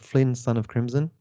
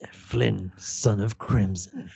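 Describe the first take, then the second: First: It is said in a plain, ordinary voice. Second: It is said in a dramatic, put-on voice. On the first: The speaker calls it wrong. "I feel like you're not doing it justice" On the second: The speaker calls it right. "Can you say it in the proper voice?"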